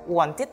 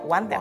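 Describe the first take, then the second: First: The ending is pronounced with English sounds. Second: Each letter is sounded as in Indonesian. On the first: The speaker calls it right. "Jadi bacanya harusnya wanted" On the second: The speaker calls it wrong. "para pembelajar akan membacanya wanted"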